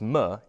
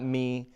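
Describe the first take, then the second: First: The m is said with no vowel after it. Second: The m is followed by an ee vowel. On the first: The speaker calls it right. "so it's m" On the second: The speaker calls it wrong. "It's not me"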